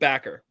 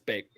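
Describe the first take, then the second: First: The first vowel sounds like the one in 'back'. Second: The first vowel sounds like the one in 'bake'. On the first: The speaker calls it wrong. "or is it Backer?" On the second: The speaker calls it right. "It's Baker"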